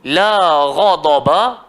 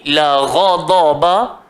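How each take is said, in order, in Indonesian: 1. Vokal pada kata pertama panjang. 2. Vokal pada kata pertama pendek. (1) "maksudnya tidak marah" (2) "kalau kita pendekkan"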